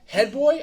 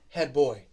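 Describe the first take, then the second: First: The pitch does not fall across the phrase. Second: The pitch falls across the phrase. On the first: A boy who gives head. The speaker calls it wrong. "I'm not head boy" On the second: The school's chief boy prefect. The speaker calls it right. "It goes down"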